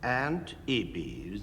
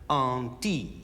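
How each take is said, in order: First: It is said as the two English words 'aunt Ibby's'. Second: It is said as one French-style word, 'on-teeb'. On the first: The speaker calls it wrong. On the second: The speaker calls it right.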